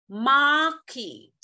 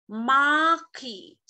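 The two takes are said the same way.

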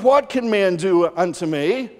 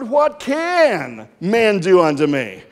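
First: It is said as a wondering question. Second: It is said as a defiant exclamation.

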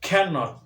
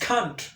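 First: It is said as the full two-syllable form. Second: It is said as one contracted syllable. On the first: The speaker calls it wrong. "Not cannot" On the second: The speaker calls it right. "it is can't"

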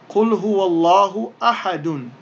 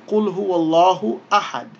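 First: The last word ends with an added -un sound. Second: The last word ends on a bare consonant. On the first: This is the full written form with its ending. "the diacritical marks on أَحَد is أَحَدٌ" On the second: The reader stops after this word. "But because we stop there, we say"

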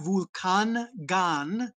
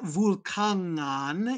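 First: The n and g are said separately. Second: The ng is said as one sound. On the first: The speaker calls it wrong. "it's not Vulkangan" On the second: The speaker calls it right. "that's that ng sound"

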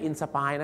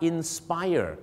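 First: The ending is a single clipped 'fai' sound. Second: The ending has a two-beat 'fai-er' sound. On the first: The speaker calls it wrong. "ไม่ใช่" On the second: The speaker calls it right. "ถูกต้องแล้วครับ"

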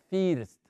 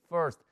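First: The vowel does not sound like that 'er'. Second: The vowel sounds like the 'er' in Fernando. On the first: The speaker calls it wrong. "No se dice first" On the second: The speaker calls it right. "se pronuncia así"

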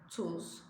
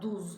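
First: The word begins with a t sound. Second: The word begins with a d sound. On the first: The speaker calls it right. "T ile tuz" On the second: The speaker calls it wrong. "D değil"

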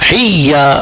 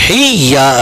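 First: The y sound is held and doubled. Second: The y sound is held and doubled.

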